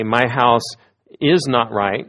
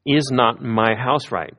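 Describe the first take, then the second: First: "My house is not right" said as a plain statement, falling on "house"; firm declarative reading of "My house is not right". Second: "Is not my house right?" slow, leaning on "Is" as a question; slow questioning reading of "Is not my house right?". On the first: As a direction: state it flatly as a fact. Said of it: "You can either say". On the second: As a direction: ask it, opening on "Is". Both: Shown as a demonstration.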